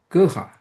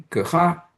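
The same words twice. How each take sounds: First: "葛哈" starting high, then dropping; tone variant. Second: "葛哈" with the first tone pattern, more even; tone variant. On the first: Lecturer shows both syllables are different, tone variant. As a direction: punch the start of "葛哈" and fall. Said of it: "So both syllables are, are different". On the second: Lecturer shows both syllables are variable, tone variant. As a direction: say "葛哈" without a high fall. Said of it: "both syllables are variable". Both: Shown as a demonstration.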